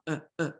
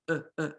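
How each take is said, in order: No difference in how they are said.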